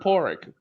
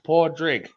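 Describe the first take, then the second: First: The middle d sound is left out. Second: The middle d sound is clearly pronounced. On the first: This is how Scottish people say it. "the Scots pronounce it Porrig" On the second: This is how Irish people say it. "in Ireland it's usually pronounced Portrig"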